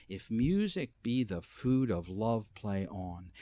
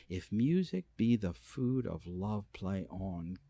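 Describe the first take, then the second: No difference in how they are said.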